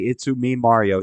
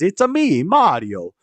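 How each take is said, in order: First: The opening is blended into one word, 'itsu'. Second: The opening is said as two parts, 'it's a'. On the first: The speaker calls it wrong. "Mario does not say" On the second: The speaker calls it right. "He says"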